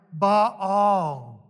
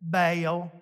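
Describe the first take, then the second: First: Baal said "bah-al", open ah sound; Baal pronounced "bah-all"; Hebrew Baal. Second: Baal said as "bail", long A like the name Bale; Baal pronounced "bail"; Southern Baal. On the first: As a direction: say Baal with an ah, not an A. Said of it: "Hebrew doesn't have an A sound". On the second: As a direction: say Baal to rhyme with bail, Alabama style. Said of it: "how do we say it?". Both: Shown as a demonstration.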